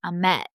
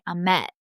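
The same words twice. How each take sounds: First: The stress is on the second syllable. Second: The stress is on the second syllable.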